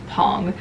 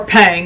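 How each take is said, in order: First: The title is said the Korean way. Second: The title is said in a non-Korean way. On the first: "The Korean pronunciation is Pong" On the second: "or Pang, however you want to pronounce it"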